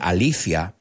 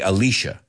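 First: The name is pronounced the Spanish way. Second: The name is pronounced the American English way. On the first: This is how the Spanish-speaking audience says it. "I know you guys say Alicia" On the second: This is how it is said in the speaker's country. "We say Alicia. that's the pronunciation over here"

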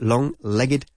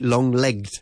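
First: The ending of legged is a separate syllable. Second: The ending of legged is not a separate syllable. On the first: The speaker calls it right. "It's long-legged" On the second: The speaker calls it wrong. "We don't say long-legged"

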